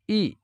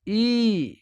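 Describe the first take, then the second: First: ई clipped short as a brief short i; short i vowel. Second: ई drawn out as a long ee, a bit higher; long ii vowel. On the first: Teacher demonstrating the short ई to students, clipped short. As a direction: say ई quickly, barely holding the vowel. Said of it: "छोटी ई है". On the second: Teacher contrasting the long ई for learners, drawn out. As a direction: stretch ई into a long held ee. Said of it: "बड़ी ई है". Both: Shown as a demonstration.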